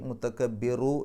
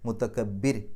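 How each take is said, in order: First: The word ends with a short u vowel. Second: The word ends on a bare r sound. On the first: The reciter continues without stopping. "നിർത്താതെയാണ് ഓതുന്നതെന്നുണ്ടെങ്കിൽ" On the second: The reciter stops at this point. "അവിടെ പാരായണം നിർത്തുകയാണെങ്കിൽ റാഇന് സുക്കൂനിട്ടിട്ട് നിർത്തുക"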